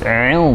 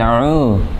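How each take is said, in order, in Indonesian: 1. Vokal setelah ain terdengar tipis. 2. Vokal setelah ain terdengar tebal. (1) "A'u ain tipis" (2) "bukan a'u, tapi tipis"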